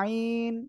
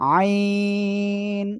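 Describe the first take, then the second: First: The vowel is short, without throat tension. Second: The vowel is long, with a pressed throat. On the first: The speaker calls it wrong. "আইনটা এভাবে উচ্চারণ হয় না।" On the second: The speaker calls it right. "গলাটা চেপে উচ্চারণ করতে হবে, আর চারের টান হবে।"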